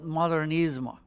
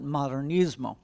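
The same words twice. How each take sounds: First: It is said with Catalan pronunciation. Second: It is said with Spanish pronunciation. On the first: "in Catalan, they call it" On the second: "in Spanish, they call it"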